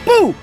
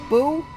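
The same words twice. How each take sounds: First: It sounds bold and confident. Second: It sounds hesitant and unsure.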